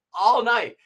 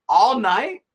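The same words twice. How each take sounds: First: All night. with a falling, matter-of-fact tune; confirming statement. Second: All night? with a rising, doubtful tune; incredulous question. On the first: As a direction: state it flatly as settled. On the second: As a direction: ask it in disbelief, voice rising at the end. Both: Retold or imitated. Dialogue: question then answer.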